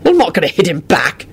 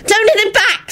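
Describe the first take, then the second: First: Said in the usual way. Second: High-pitched pleading wail; frantic, high entreaty; desperate wail. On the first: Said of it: "he said finally". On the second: Acted. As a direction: cry out to stop a fight. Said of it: "Solange wailed desperately".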